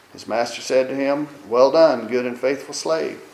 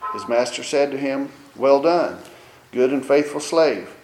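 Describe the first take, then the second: No difference in how they are said.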